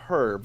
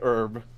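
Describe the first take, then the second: First: The word starts with an h sound. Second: The word starts without an h sound. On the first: "we say herb because it's got a bloody H in it" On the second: "you say herb"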